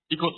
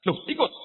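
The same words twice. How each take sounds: First: Said in the usual way. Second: High, rising startled question; surprised question. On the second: Retold or imitated. Husband seeing his wife dressed to travel, surprised rising question. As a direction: ask it in mock surprise.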